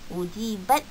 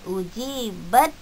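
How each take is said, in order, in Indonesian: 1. Bunyi t di akhir diucapkan dengan jelas. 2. Bunyi t di akhir langsung menyatu dengan d. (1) "tak perlu bunyikan ta tu ... tak perlu macam tu" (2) "Terus sahaja ujibat da'watukuma, terus bunyikan dal tu"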